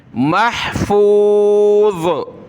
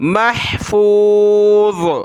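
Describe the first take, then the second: Both takes have the same delivery.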